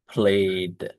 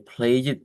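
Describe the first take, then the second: First: The ending adds no extra syllable. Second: The ending is an extra syllable. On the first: The speaker calls it right. "but we say played" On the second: The speaker calls it wrong. "We do not say play it"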